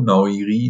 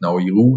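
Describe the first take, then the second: First: "Naoiri", ending in an ee sound; alternative pronunciation. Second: "Naoiru", ending in an oo sound; tentative pronunciation. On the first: Podcaster offering another guess at the first name, "Naoiri" ending in ee. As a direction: try "Naoiri" with a final -ri. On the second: Podcaster guessing at a player's first name, trying "Naoiru" ending in oo. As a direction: try "Naoiru" with a final -ru. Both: Shown as a demonstration. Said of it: "wie man ihn ausspricht".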